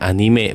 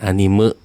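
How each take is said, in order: First: The final vowel is a clear Japanese e. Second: The final vowel is a schwa-like e. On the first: The speaker calls it right. "Kalau orang Jepang ngomongnya anime" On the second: The speaker calls it wrong. "bukan anime"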